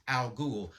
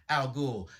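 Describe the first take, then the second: Both takes have the same delivery.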